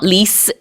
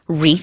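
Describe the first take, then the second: First: The word ends with an s sound. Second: The word ends with a th sound. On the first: This is the Korean loanword pronunciation. The speaker calls it wrong. "which is not lis" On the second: This is the real English word. The speaker calls it right. "it's wreath"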